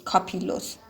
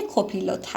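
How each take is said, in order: First: کاپیلوت with an open "a" as in English "copilot", kaa-pee-lot; کاپیلوت said quietly as kaa-pee-lot; alternative pronunciation. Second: کوپیلوت with "koo" as in "cool", ko-pee-lot; کوپیلوت said with a long "oo" vowel; first pronunciation guess. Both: Shown as a demonstration.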